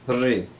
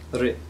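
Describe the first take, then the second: First: The rolled vowel is held for a longer time. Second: The rolled vowel is held only briefly. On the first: "It's rolled a little bit longer" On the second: "It's a rolled R sound"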